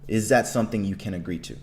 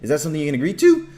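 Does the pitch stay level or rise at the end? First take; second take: level; rise. First: The pitch stays level to the end. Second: The pitch rises toward the end. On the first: The speaker sounds confident and authoritative. The speaker calls it right. "See how my my tone stays the same way" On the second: The speaker lacks confidence. The speaker calls it wrong. "have an ascending tone"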